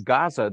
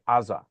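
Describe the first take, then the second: First: The word begins with a hard G sound. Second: The word begins with a vowel sound. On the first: "they never say Gaza" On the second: "they say Aza"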